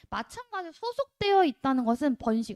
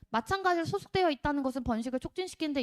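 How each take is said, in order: First: It is read in short chunks with pauses. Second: It is read in one continuous run.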